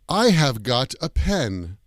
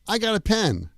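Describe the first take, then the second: First: The word have is said in full. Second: No v sound is heard before got. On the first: It sounds British or old-fashioned. "that sounds very British English or very old-fashioned" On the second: Many native speakers say it this way. "It sounds like I got a pen"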